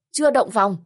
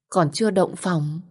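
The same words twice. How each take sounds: First: Eager surprise. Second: Said in the usual way. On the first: A narrator's reading. Aunt seizes on the niece's confession, surprised and eager. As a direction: pounce on the news with eager disbelief. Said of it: "Bác Xuân vồn vã hỏi tôi". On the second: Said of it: "vồn vã hỏi".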